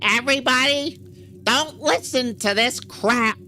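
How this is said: It is said in an imitated voice.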